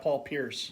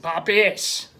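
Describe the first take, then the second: First: It is said in the speaker's plain accent. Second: It is said in a Boston accent.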